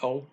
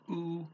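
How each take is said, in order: First: The vowel sounds like 'oh'. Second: The vowel sounds like 'oo'. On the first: "you could pronounce it O" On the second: "usually people in Brazil pronounce it U"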